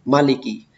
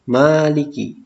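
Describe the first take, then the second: First: The first vowel is said short. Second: The first vowel is said long. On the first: The king above all kings. "Kalau Maliki itu adalah Al-Malik" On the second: The one who holds power over all affairs. "Kalau Maliki dibaca panjang"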